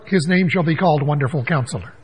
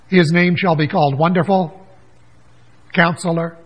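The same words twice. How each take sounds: First: Wonderful Counselor is said without a pause. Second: There is a pause after Wonderful.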